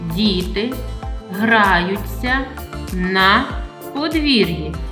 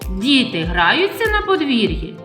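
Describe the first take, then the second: First: It is said with a plain, level statement tune. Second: It is said with a questioning tune. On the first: It simply reports what is happening. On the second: It asks whether this is happening.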